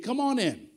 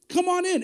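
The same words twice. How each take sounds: First: Said in the usual way. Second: Welcoming call. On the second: Shown as a demonstration. Pastor inviting everyone to God's table, calling out. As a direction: come on in, higher and louder.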